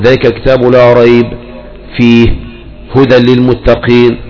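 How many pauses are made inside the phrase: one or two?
two. It pauses after both ريب and فيه. The speaker calls it wrong. "فلا ينبغي ان تقول ذلك الكتاب لا ريب فيه هدى للمتقين، لا ما تقف، انت ممنوع ان تقف عند الوقفين"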